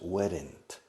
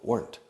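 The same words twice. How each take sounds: First: The word is said with two syllables. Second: The word is said with one syllable. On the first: The speaker calls it wrong. "We don't say in English weren't. Two syllables" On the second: The speaker calls it right. "It's one syllable"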